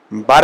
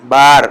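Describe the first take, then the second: First: Said in the usual way. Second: Loud بار with a wide open aa; open Persian a. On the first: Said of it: "بر اگر بولیں گے بر". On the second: Shown as a demonstration. Teacher contrasting Urdu بر with Persian. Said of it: "زبر کا تلفظ ذرا کھل کر".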